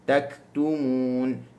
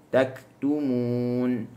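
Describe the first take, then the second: Both takes have the same delivery.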